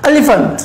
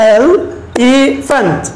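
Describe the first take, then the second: First: Said in the usual way. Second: "elephant" drawn out very slowly as e-li-phant, one beat each; slow clapping demo; clapped syllables. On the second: Shown as a demonstration. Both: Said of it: "ক্লেপের সাহায্যে বলি".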